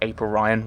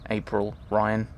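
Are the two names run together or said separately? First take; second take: run together; separate. First: The two names run together as one word. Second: The two names are said as separate words.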